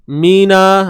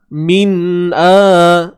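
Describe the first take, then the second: First: The n runs straight into the vowel. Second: The n is held apart from the vowel. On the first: The speaker calls it wrong. "jangan bunyi mina" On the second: The speaker calls it right. "bunyi A tu pastikan betul-betul daripada kerongkong kita"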